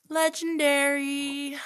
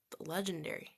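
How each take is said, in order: First: Legendary stretched out slowly, higher and louder; drawn-out loud legendary. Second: Said in the usual way. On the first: Shown as a demonstration. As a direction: belt out Legendary slowly and high.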